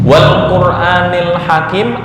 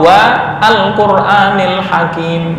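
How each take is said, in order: First: Wa links straight into al with no glottal stop. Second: A glottal stop separates wa from al. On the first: The speaker calls it right. "Mana yang benar? Wal Qur'anil Hakim" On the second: The speaker calls it wrong. "atau wa al Qur'anil Hakim"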